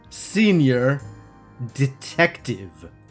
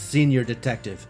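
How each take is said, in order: First: It is said slowly and deliberately. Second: It is said at a normal pace.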